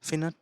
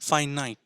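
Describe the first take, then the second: First: The first syllable sounds like 'fin'. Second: The first syllable sounds like 'fine'. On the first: The speaker calls it wrong. "এটা একেবারেই ঠিক নয়" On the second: The speaker calls it right. "তাহলে ঠিকটা কি?"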